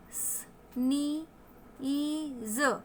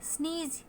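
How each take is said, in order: First: "स्नीज" stretched very slowly, sound by sound: स-नी-ई-ज़. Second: Said in the usual way. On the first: Shown as a demonstration. Teacher sounding out a new word for learners, syllable by syllable. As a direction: draw out the long ee in "स्नीज" and separate each sound. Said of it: "ये बड़ी ई की मात्रा देता है". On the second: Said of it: "next word है स्नीज".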